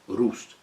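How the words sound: The name is said with German pronunciation. The speaker calls it right. "It's pronounced German"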